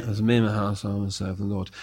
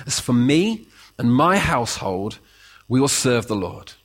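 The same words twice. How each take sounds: First: Low, soft, disengaged recital; flat rote reading. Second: Steady, resolute claim; mean every word; firm sincere claim. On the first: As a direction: read it like words on a plaque. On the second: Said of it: "difference between when you claim that". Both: Shown as a demonstration.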